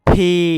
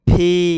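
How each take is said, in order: First: It starts with a breathy p sound. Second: It starts with a breathy p sound.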